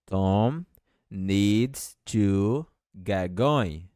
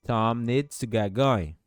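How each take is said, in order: First: Each word spaced out, very slow; slow dictation. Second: Said in the usual way. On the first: Shown as a demonstration. Teacher dictating slowly to Portuguese-speaking students. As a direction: spell it out slowly for learners. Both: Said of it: "E essa frase, como fica?".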